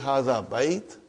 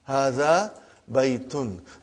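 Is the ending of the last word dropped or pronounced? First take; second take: dropped; pronounced. First: The final ending of the last word is dropped. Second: The final ending of the last word is pronounced. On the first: "that's the way you stop it. You don't ... pronounce the last" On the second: "we will pronounce everything"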